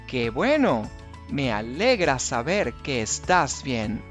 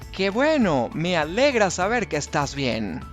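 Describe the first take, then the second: First: It is said at a normal pace. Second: It is said at a faster pace.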